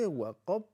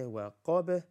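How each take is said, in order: First: Waqab stopped dead on the b; no bounce. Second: Waqab with a bounced, echoed final b; bouncing ba. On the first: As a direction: say waqab wrongly, raised, without releasing the b. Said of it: "We don't say waqab". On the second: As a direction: release the b of waqab into a tiny "beh". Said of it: "because ba is a bouncing letter". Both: Shown as a demonstration.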